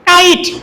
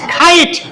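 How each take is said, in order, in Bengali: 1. প্রথম ধ্বনিটি একটি সাধারণ, আনঅ্যাসপিরেটেড 'k'। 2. প্রথম ধ্বনিটি একটি শ্বাসযুক্ত, অ্যাসপিরেটেড 'k'। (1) "যেমন আমরা পড়ছি কি কাইট" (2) "কিন্তু শুদ্ধ উচ্চারণ কি খাইট"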